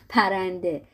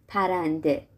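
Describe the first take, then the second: The two takes are said the same way.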